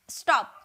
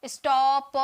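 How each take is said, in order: First: Said in the usual way. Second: "स्टॉप" drawn out slowly, final प as its own beat; wrong split syllable. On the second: Shown as a demonstration. Teacher showing students how not to say it, slow and split. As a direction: stretch "स्टॉप" into two sounds, स्टॉ and प. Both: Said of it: "ऐसे थोड़ी बोल रहे हैं".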